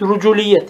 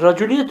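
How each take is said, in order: First: The first vowel is a rounded 'u' sound. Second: The first vowel is an open 'a' sound. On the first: "ve dammiye" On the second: "Bi fethir râye"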